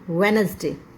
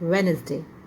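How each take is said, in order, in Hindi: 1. बीच का d मौन रहता है। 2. बीच का d मौन रहता है।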